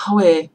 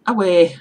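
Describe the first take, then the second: First: "Away" with a breathed H, like "how-ay"; northern Geordie form. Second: "Away" without the H, loud; Middlesbrough dialect. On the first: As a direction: start "Away" on a loud H, Geordie style. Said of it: "if you go further up north, you'll hear". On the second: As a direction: call out "Away" with no H at the start. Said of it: "we say". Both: Shown as a demonstration.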